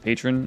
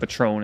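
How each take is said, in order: First: The word is pronounced in the standard way. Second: The word is pronounced in an altered, nonstandard way. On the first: The speaker calls it right. "instead of patron" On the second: The speaker calls it wrong. "saying a word wrong on purpose"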